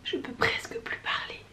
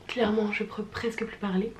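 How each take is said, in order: First: Breathy, voiceless, barely there; hoarse whisper. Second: Rough, husky, worn-out voice; hoarse voice. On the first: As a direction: whisper it like the voice is gone. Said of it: "On peut le dire que". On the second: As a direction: speak with a tired, hoarse voice. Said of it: "voix, euh, de fumeuse du dimanche". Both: Real, not acted.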